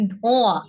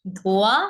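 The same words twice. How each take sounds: First: "ধোঁয়া" with the vowels sent through the nose; nasalised vowel. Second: Said in the usual way. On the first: Shown as a demonstration. Teacher contrasting chandrabindu for students, nasalised. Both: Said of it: "এই গেল চন্দ্রবিন্দুর উচ্চারণগুলো".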